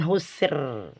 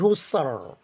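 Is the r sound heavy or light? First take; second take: light; heavy. First: The r is pronounced thin and light. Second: The r is pronounced thick and heavy. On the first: The speaker calls it wrong. "Bukan husr" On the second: The speaker calls it right. "tapi husr. Tebal ya"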